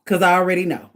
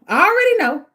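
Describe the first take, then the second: First: Said in the usual way. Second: Higher and louder, insisting; emphatic. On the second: Real, not acted. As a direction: punch it out like you mean it. Emphatic repeat of own words.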